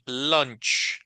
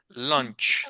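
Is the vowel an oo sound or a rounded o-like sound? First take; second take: rounded o; rounded o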